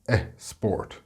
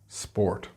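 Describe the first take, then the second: First: An extra vowel sound comes before the word. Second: The word starts directly with its consonants. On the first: The speaker calls it wrong. "or eh, sport" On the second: The speaker calls it right. "instead of sport"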